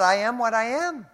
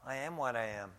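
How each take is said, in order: First: High and loud, each word driven home; forceful scripture quote. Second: Popeye. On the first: Acted. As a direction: proclaim it from the pulpit, louder. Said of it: "Paul wrote". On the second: Retold or imitated. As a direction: toss off the line like Popeye the sailor, understated. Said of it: "I think of Popeye".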